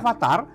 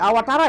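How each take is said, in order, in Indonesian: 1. Konsonan setelah vokal pertama adalah V. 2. Konsonan setelah vokal pertama adalah W. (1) "bukan avatar" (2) "Jadi awatara ya"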